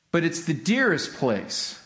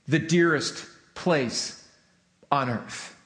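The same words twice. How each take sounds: First: Said in the usual way. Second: "dearest" drawn out slow and weighted, then "on earth" dropping low; stressed "the dearest place on earth" with a falling close. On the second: Shown as a demonstration. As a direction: lean slowly into "dearest place".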